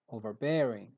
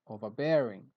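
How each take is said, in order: Both takes have the same delivery.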